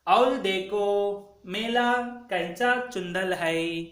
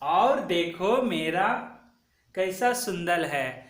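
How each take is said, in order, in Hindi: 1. r और s की ध्वनियाँ l और ch बन जाती हैं। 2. r और s की ध्वनियाँ सामान्य रूप से बोली जाती हैं।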